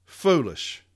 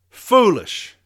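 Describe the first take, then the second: First: Muttered scorn. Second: Foolish. barked out high and loud; loud high scoff at Foolish; loud scornful verdict. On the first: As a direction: shake your head and mutter Foolish. Repeating the verdict to himself. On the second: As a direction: spit out Foolish. in disgust. Scorning the memo's author. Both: Real, not acted.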